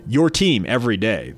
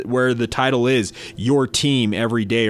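First: Booming on-air slogan read; radio announcer voice. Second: Said in the usual way. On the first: Shown as a demonstration. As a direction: sell it like a radio jingle. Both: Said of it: "My radio announcer voice".

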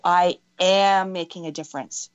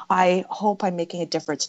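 First: Long, emphatic "am"; stronger, owning it. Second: Tentative, wishful statement; weak hope. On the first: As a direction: lean hard on "am", state it as fact. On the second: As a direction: say it as only a hope, not owned. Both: Shown as a demonstration. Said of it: "they need to hear it stronger".

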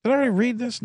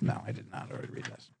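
First: Said in the usual way. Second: Whispered aside to himself; whispering. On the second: Real, not acted. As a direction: drop to a breathy whisper. Muttering to self mid ad.

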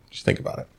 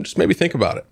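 First: Breathy whisper, no voice. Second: Said in the usual way. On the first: Real, not acted. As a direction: whisper it like a hint. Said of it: "repeated advice, softer". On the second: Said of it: "repeated advice".

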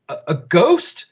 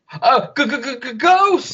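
First: Said in the usual way. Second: High, stuttering terrified ghost; stammering scared ghost cry. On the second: Shown as a demonstration. Spotting a ghost on the ship, stuttering fright. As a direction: stutter it out like a spooked cartoon. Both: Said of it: "I'm saying it the wrong way".

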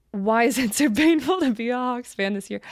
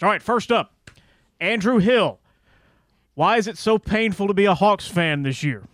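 First: Laughing while reading. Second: Announcer reading a listener question; booming radio voice. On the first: Real, not acted. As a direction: question read through a laugh. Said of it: "rereads the question laughing". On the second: Acted. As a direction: read it like a radio host. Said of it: "in his booming radio voice".

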